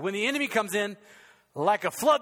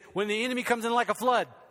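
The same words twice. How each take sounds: First: There is a pause after comes in. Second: It runs on without a pause after comes in.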